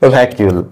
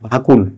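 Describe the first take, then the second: First: It is said longer, like 'vyakiul'. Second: It is said short, like 'vakul'. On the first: This is how the speaker says it now. The speaker calls it right. "ভাকুল থেকে আজকে আমি কোন পর্যায়ে পৌঁছেছি" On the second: This is how the speaker used to say it. The speaker calls it wrong. "আমি আগে এটাকে কি বলতাম না, ভাকুল ভাকুল বলতাম"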